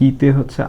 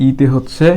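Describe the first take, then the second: No difference in how they are said.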